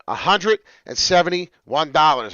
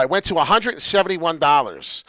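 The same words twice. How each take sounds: First: "a hundred and seventy-one dollars" loud, drawn out in pieces; slow emphatic repeat. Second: Loud, raised and emphatic; indignant price report. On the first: Host repeats price to viewers, "a hundred and seventy-one dollars" slowly hammered. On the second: Host tells viewers the price jumped, loud emphasis. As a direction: announce "a hundred and seventy-one dollars" loudly. Price first stated, then repeated slowly. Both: Real, not acted.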